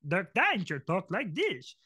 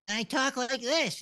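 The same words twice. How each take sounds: First: Slow, put-on cartoon character voice; Dirk Danger. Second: Higher, slow cartoon character voice; Bot Bots character voice. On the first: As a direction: stretch it out as a swooping cartoon character. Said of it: "Or Dirk Danger off Almost Naked Animals". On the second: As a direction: draw it out in a high-pitched put-on voice. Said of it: "I was doing Bot Bots". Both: Shown as a demonstration.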